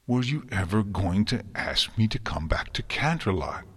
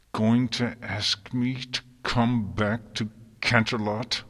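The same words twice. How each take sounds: First: Thick with emotion. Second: Tight, pressed through clenched teeth. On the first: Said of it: "her voice thick with conflicting emotion". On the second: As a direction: speak with the jaw locked. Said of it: "through clenched teeth". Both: A narrator's reading.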